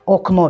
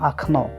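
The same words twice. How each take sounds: First: The first vowel is a full O sound. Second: The first vowel is reduced to an A sound. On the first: "пишем" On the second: "но говорим"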